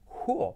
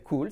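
First: "cool" higher, as KOO-ol; pronunciación correcta. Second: "cool" as KOOL, light Spanish l; pronunciación errónea. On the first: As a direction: give "cool" a dark l, almost two syllables. ("cool" agudo, como «cúol») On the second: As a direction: keep the tongue-tip l in "cool". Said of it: "no va a ser cool". ("cool" mal dicho, «cul») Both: Shown as a demonstration.

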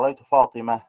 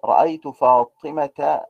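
First: فاطمة stopped as "Fatimah", no t; pausal ha ending. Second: Slow فاطمة, final ta sounded with an "a" vowel; connected form with ta. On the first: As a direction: drop the ta of فاطمة and stop. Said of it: "أقف بالهاء". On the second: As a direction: link on through فاطمة as "Fatimata". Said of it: "توصل بالتاء". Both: Shown as a demonstration.

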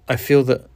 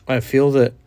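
The two takes are said the same way.

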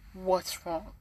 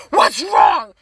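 First: Soft, caring question; gentle concern. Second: Loud, startled demand; alarmed shout. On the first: Acted. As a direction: ask quietly, ready to listen. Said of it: "Like, listening". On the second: Retold or imitated. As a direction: act out someone jolted awake by screaming. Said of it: "when I wake up screaming".

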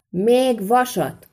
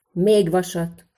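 First: Slow, high, drawn-out shout; loud shout. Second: Said in the usual way. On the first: A narrator's reading. Smith shouting so those outside hear too, loud shout. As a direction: call it out loudly, stretching the words. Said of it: "kiáltotta Szűcs Lajos, jó hangosan".

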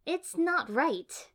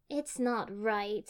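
First: High, loud, drawn-out protest; complaining. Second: Slow, mildly glum agreement; dejected agreement. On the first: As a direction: whine at the injustice, slowly. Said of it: "Ino complained". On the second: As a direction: agree as if sinking, drawn out. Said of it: "Sakura agreed, shoulders sinking". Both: A narrator's reading.

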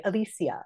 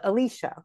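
First: "Alicia" in four syllables, a-LEE-see-a; full-length "Alicia"; unelided name. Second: "Alicia" in three syllables, a-LEE-sha; shortened "Alicia"; elided name. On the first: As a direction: sound every vowel in "Alicia". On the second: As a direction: merge the end of "Alicia" to -sha. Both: Shown as a demonstration. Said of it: "We don't always say Alicia".

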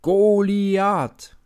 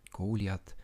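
First: Drawn-out chant, much louder and higher; shouting crowd. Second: Said in the usual way. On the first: A narrator's reading. Philistine army chanting their champion's name, loud and high. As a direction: bellow the name like a whole army. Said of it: "schreien die Philister". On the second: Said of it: "narration after the chant".

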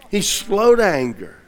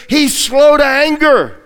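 First: Said in the usual way. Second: Emphatic. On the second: Acted. Preacher emphasizes God's patience.

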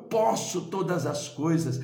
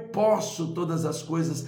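No difference in how they are said.

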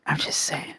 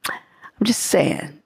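First: Barely voiced, fading whisper; the teasing hint repeated under her breath; even softer whisper. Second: Slow whispered aside, half to herself; a sly whispered hint about a future project; teasing whisper. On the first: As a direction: breathe it out almost silently. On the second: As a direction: let it slip out as a secret aside. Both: Real, not acted.

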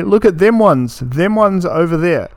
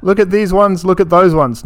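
First: Imitating Australian "them ones" with a pitch lift; mocking Australian phrasing. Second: "these ones" and "those ones" said higher and pointed; correcting with "these ones" and "those ones"; correct version. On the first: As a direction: parody the way Aussies say "them ones". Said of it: "That's how a normal person will say it. People say". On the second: Shown as a demonstration. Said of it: "Not look at them ones".

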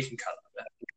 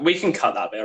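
First: A whispered plea to cut the slip; whispered aside. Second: Said in the usual way. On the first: Real, not acted. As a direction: drop to a whisper for the repeat. Repeats the request hushed.

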